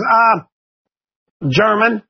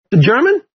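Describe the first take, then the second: First: Hesitant student answer, stated without a rise; lightly voiced kid offering an unsure reply; nervous student. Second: GERMAN lifted in a rising question; questioning echo. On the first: Joe answers the teacher about his grandfather, mildly nervous. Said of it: "they get real nervous". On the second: Retold or imitated. Teacher checks Joe's answer, questioning rise on GERMAN. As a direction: echo it back with GERMAN going up at the end.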